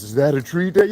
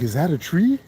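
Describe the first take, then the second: First: Put-on kid's question, slightly higher; lightly voiced kid asking his dad; mimicking the kid. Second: Put-on lightly raised baby voice asking about a tree; a hint of a toddler's curious question; baby's question. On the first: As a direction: ask it like the now-grown son. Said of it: "now he does it to us". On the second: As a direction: mimic a small child asking, a bit higher. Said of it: "babies just mimic everything".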